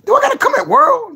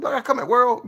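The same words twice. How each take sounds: First: High loud playful challenge; high mock challenge. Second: Said in the usual way. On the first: Real, not acted. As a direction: call him out shrilly. Mock threat.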